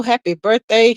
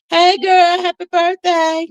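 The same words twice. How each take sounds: First: Said in the usual way. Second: Excited birthday greeting. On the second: Real, not acted. Host gushes happy birthday at her mod, excited and high. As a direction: squeal it out to your friend.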